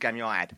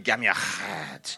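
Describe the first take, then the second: First: It is said with an English Essex accent. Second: It is said with a Hebrew-style pronunciation. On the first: The speaker calls it wrong. "But in Essex it's gam yahad" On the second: The speaker calls it right. "it should be gam yahad"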